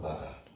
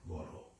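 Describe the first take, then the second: First: It is said with 'a' vowels and a D sound. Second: It is said with 'o' vowels and an R sound. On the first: The speaker calls it wrong. "so it's not Bada" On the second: The speaker calls it right. "pronounced as an R"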